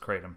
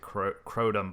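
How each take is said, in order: First: The first vowel sounds like 'cat'. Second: The first vowel sounds like 'coat'. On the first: The speaker calls it right. "the correct, correct pronunciation is kratom" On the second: The speaker calls it wrong. "I've always pronounced it crotum"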